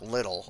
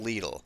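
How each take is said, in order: First: The name is given its British pronunciation. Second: The name is given its German pronunciation. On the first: This is how people in Scotland and England say it. The speaker calls it wrong. "not little, as they say in Scotland and England" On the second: This follows how the company's founders say it. The speaker calls it right. "it's pronounced Lidl"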